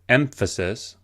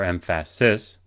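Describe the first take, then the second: First: The stress is on the first syllable. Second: The stress is on the third syllable. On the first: The speaker calls it right. "we emphasize the first syllable" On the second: The speaker calls it wrong. "as opposed to"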